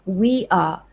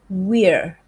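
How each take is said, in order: First: The pronoun and verb are said as two words. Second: The pronoun and verb are joined into one syllable. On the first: "What about we are?" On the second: "You can contract this like so"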